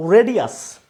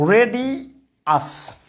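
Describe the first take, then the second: First: Said in the usual way. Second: রেডিয়াস repeated slowly and drawn out; slow the word রেডিয়াস right down; slow model pronunciation. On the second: Shown as a demonstration. Teacher repeating the word, slow and clear. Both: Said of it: "এরপরে হচ্ছে".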